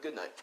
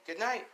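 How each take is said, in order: First: Quiet, falling good night, lightly acted; father's good night. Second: High, soft good night with a rising end; mother's good night. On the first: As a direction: drop it softly at the end. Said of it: "And he's like". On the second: Acted. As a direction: lift it high and keep it soft. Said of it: "And she's like".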